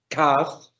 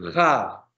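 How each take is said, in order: First: It begins with a hard stopped K sound. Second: It begins with a harsh raspy J sound. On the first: "lene suena como nuestra K" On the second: "suena como una especie de J española fuerte"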